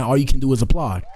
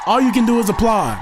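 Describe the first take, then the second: First: Said in the usual way. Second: Much higher-pitched proclamation; emphatic exclamation. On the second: Real, not acted. Host repeats his line to hype the couple, emphatic.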